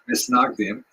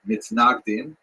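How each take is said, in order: First: It is said in Ashkenazi Hebrew pronunciation. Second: It is said in standard Hebrew pronunciation. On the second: "in Hebrew"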